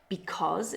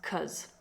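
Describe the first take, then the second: First: The word is said fully with both syllables. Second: The first syllable is dropped, leaving one syllable.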